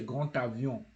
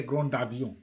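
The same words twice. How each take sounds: First: GRAND AVION linked with a T; D sounded as T. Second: GRAND AVION linked with a voiced D; D kept as D. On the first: Teacher corrects GRAND AVION for learners, T sounded. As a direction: turn the D of GRAND to T before AVION. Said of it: "You say". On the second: Teacher shows learners the mistake in GRAND AVION, D sounded. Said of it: "You can never say". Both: Shown as a demonstration.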